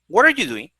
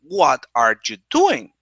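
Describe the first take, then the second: First: The phrase is said fast, with words linked. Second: The phrase is said slowly, each word separate. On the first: The speaker calls it right. "We say it fast" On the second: The speaker calls it wrong. "they don't say"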